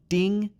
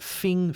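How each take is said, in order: First: The word begins with a d sound. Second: The word begins with an f sound. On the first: "This sound is not a D sound. It's not ding" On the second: "it's also not a F sound. It's not fing"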